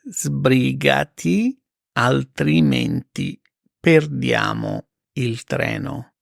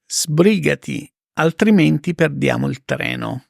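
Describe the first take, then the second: First: Very slow, spaced repeat; slow it right down for learners; careful slow teacher read; slow and clear. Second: Said in the usual way. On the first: Shown as a demonstration. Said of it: "slow repeat for learners". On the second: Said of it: "example then slow repeat".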